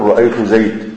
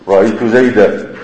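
First: The last word ends with no final vowel. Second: The last word ends with a long 'a' vowel. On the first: This is how the Rabi'a tribe pauses on it. "لغة ربيعة تقف عليها بالسكون" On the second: This is how most Arabs pause on it. "تقف عليها بالألف المنون المنصوب"

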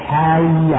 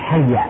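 First: The vowel after the h is lengthened. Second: The vowel after the h is short. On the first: The speaker calls it wrong. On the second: The speaker calls it right.

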